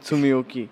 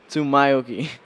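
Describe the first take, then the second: First: The middle of the name sounds like 'mio'. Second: The middle of the name sounds like 'mayo'. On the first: The speaker calls it wrong. "Not Tsumioki" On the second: The speaker calls it right. "My name is Tsumayoki"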